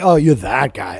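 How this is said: The tone sounds accusing and disapproving. The speaker is criticizing the person. "it's not like that guy"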